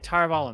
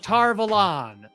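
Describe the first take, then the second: First: The last syllable has a weak, reduced vowel. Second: The last syllable has a full 'on' vowel. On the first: This is how the audiobooks say it. The speaker calls it right. "It's pronounced Tarvalin, and that's how they say it" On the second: This is how the show says it. The speaker calls it wrong. "that just sounds like the way someone would incorrectly pronounce it"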